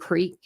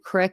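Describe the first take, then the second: First: The vowel is long, like in 'seek'. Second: The vowel is short, like in 'sick'. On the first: The speaker calls it right. "instead of creek" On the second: The speaker calls it wrong. "if I said crick"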